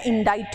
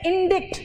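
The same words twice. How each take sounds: First: इंडाइट as "in-DITE", silent c; correct pronunciation. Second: इंडिक्ट with short i and sounded k, "in-dikt"; common mispronunciation. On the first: Teacher gives students the right sound, इंडाइट as "in-DITE". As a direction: say इंडाइट with a long "eye" and no k. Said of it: "और pronunciation इसका इंडाइट है". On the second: Teacher quotes how we all say it, इंडिक्ट as "in-dikt". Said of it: "हम लोग कहते हैं इंडिक्ट". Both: Shown as a demonstration.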